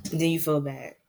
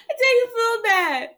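First: Said in the usual way. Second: Laugh-cry it out, helpless with giggles. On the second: Real, not acted. Host laughing at her own guilt over the old lady, laughing.

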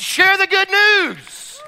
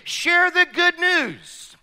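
First: Louder, higher, slow call with a rise on news; slow, ringing call to share the news; emphatic repeat. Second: Slow, falling close on good news; slow, weighty statement; slow stressed line. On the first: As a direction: ring it out to the congregation. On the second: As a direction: land it firmly and slowly. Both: Shown as a demonstration.

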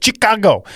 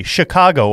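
First: A hint of Trump saying Chicago, pitched up; mild Trump impression of Chicago; Trump-style Chicago. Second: Said in the usual way. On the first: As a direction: lightly mimic Trump on Chicago. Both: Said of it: "as I think Trump calls it".

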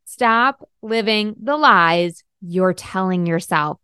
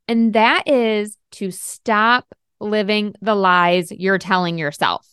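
First: Slower, deliberate, every word weighted; slow repeat for emphasis. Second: Slow, weighty delivery of the whole line; slow emphasis. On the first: Coach repeating her point to listeners, slow and deliberate. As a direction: say it again slowly and let it land. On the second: Coach driving home her key point, slow and weighty. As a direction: lean on each word, slowly. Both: Shown as a demonstration. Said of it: "Let me say that again".

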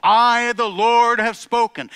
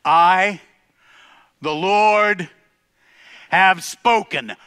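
First: Loud, high, ringing declaration; booming proclamation. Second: Slow, loud, drawn-out declaration; thundering decree. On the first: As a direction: announce it like God himself. Proclaiming God's words. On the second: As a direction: let each word land like a verdict. God's decree, repeated climax. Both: Acted.

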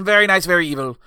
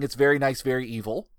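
First: Theatrical villain catchphrase, louder; hammed-up demon showman voice; Danhausen. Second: Said in the usual way. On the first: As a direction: pronounce it like a showy cartoon villain. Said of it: "His voice is like this". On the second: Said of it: "he just introduces".

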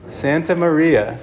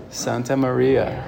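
First: Santa Maria repeated higher and slowly, falling at the end; lifting Santa Maria on the repeat. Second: Santa Maria said slowly, spelled out for the congregation; drawing out Santa Maria slowly; slow, deliberate naming. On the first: Priest repeats the boat's name to the congregation, higher and slow. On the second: Priest slowly names the boat for the congregation, deliberate. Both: Shown as a demonstration. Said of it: "Does anybody remember?".

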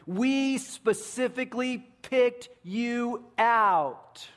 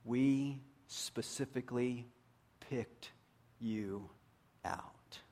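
First: Loud, high and slow, WE SPECIFICALLY PICKED YOU OUT; very serious emphasis. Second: "We... specifically... picked... you... out", slowly, softly, pausing between words; emphasis on every word. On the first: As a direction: proclaim "We specifically picked you out" with drawn-out, raised force. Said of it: "they were very serious". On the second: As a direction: quietly set each word apart in "We specifically picked you out". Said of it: "put an emphasis on every word". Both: Retold or imitated.

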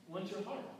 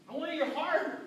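First: Softer, repeated to land it; preacher softly repeating Jesus' words to the congregation; quiet echo. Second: Put-on Jesus telling the rich young ruler he wants his heart; Jesus insisting. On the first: Real, not acted. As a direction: let it sink in quietly. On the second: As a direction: proclaim it as Jesus would.

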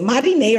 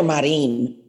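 First: Marine as three syllables, "mah-ree-NAY"; Marine ending in -ay. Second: Marine as two syllables, "mah-REEN"; Marine ending in -een. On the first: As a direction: say Marine with an -ay on the end. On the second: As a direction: say Marine with a silent final e. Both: Shown as a demonstration. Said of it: "Is it Marine or Marine".

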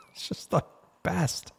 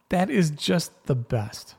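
First: Breathy near-whisper of delight; a soft, unvoiced aside of pure delight. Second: Slow, drawn-out and fond; a slow, fond repeat that savors the moment; savoring it. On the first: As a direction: whisper it to yourself, tickled. Delighted aside after the story. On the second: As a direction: linger on each word as if you love it. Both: Real, not acted.

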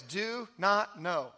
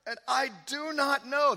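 First: "do not know." drawn out slowly, each word weighted; slow stressed reading. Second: Said in the usual way. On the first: Shown as a demonstration. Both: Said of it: "There it is".

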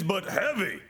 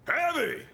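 First: Said in the usual way. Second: Heavy! jumps high with a falling tune; emphatic Heavy. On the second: Shown as a demonstration. Preacher repeating the word for emphasis, Heavy! exclaimed. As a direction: exclaim Heavy! in mock alarm.

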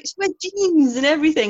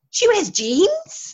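First: Higher, louder retold argument with a laugh; amused insistence. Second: Very high, slow, loud mock shock; incredulous kids. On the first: Teacher convincing schoolchildren it's acting, amused insistence. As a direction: state it as obvious proof, amused. Sister explains to children. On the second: Schoolchildren shocked by the dairymaid's jeans, incredulous. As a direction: stretch it out as a disbelieving question.

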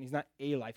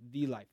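First: "a" said as a full, stressed "ay". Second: "the" given clear weight before "life"; stress on "the". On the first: Preacher ruling out one among many, stress on "a". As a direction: lean on "a", rhyming with "day". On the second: Preacher naming the only one, stress on "the". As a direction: lean firmly on "the". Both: Shown as a demonstration. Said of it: "That word "the" is very important".

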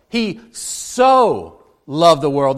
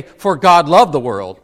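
First: "so" drawn out slowly and leaned on; "He so loved" with a long, weighted "so"; stress on so. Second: Said in the usual way. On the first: Shown as a demonstration. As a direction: linger on the word "so" to show the greatness. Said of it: "it has that little word, "so". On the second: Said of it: "notice that it doesn't say".

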